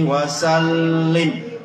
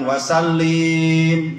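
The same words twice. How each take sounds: First: The doubled l sound is held long. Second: The final vowel is drawn out long. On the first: The speaker calls it right. "Mending panjangkan di lamnya, ada tasydid" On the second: The speaker calls it wrong. "Jangan wasallim, jangan dipanjangkan di situ Bu"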